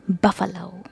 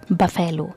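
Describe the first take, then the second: First: The stress falls on the first syllable. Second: The stress falls on a later syllable. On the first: The speaker calls it right. "Stress is given on the first syllable" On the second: The speaker calls it wrong. "It's not buffalo"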